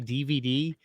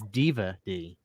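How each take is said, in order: First: Each letter is said clearly and separately. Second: The first letters blur together like one word. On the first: "He doesn't say D V D" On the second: "he says Diva D"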